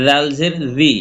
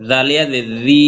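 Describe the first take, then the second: First: Final জি kept short; recited spelling with a brief জি; short vowel. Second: Recited spelling with a long জি; long madd vowel. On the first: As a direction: say জি without stretching it. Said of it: "হরকত উচ্চারণ তাড়াতাড়ি পড়বো". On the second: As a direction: stretch and hold জি. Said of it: "এক লিপ টেনে পড়বো". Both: Shown as a demonstration.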